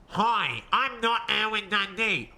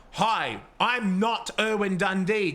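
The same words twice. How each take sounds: First: Lightly altered voice, a small put-on accent; put-on disguise voice. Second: Said in the usual way. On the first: Shown as a demonstration. Streamer showing what a disguised character voice should sound like, lightly altered voice. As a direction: say it again slightly disguised, as if someone else. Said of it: "I'll play dumb". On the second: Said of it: "if they went from".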